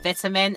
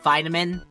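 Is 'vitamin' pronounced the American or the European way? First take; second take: European; American. First: The word is said with a European pronunciation. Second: The word is said with an American pronunciation. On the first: "in the European voice I'm doing, I said it as vitamin" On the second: "when I went to Maya's American voice, I went vitamin"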